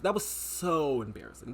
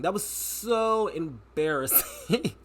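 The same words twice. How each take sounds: First: Said in the usual way. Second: Slow, stretched out, leaning on so; drawn-out emphasis. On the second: Real, not acted. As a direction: drag out "so" for emphasis. Repeated for emphasis.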